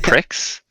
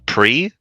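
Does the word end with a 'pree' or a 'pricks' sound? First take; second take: pricks; pree. First: It ends with a 'ks' sound, 'pricks'. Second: It ends in a plain vowel, 'pree'. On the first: The speaker calls it wrong. "misreading the word uh, pre as pricks" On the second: The speaker calls it right. "the word"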